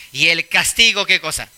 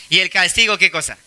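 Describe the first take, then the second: No difference in how they are said.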